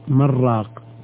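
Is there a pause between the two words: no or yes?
no. The words run together without any pause. It could sound like one word meaning a broth maker.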